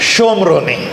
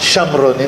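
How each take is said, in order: First: The first syllable has an 'o' vowel. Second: The first syllable has a short 'a' vowel. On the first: The speaker calls it right. "श ला काना एक मात्रा आहे" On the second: The speaker calls it wrong. "शमरोनी नाही"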